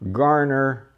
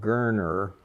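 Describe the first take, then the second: First: The first vowel sounds like the vowel in car. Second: The first vowel sounds like the vowel in her. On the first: The pronunciation used locally in the past. "is the way we pronounced it back then" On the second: The pronunciation the family later preferred. "the family preferred a pronunciation called Gerner"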